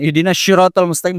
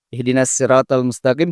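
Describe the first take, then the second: First: 'Sirat' begins with a sh sound. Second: 'Sirat' begins with a plain s sound. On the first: The speaker calls it wrong. "Jangan itu pakai shin. ... salah itu" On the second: The speaker calls it right. "juga pakai sin"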